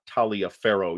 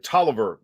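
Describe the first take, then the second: First: The name is said long, as it is spelled. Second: The name is said short, like Tolliver. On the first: The speaker calls it wrong. "and not Taliaferro" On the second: The speaker calls it right. "that's how this is more or less pronounced"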